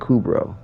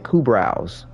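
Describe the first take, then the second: First: The last syllable rhymes with 'bro'. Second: The last syllable rhymes with 'eyebrow'. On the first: This is the usual way to say it. "instead of Kubro" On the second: This is how a friend said it. "he would call them Kubrows, like a, like an eyebrow"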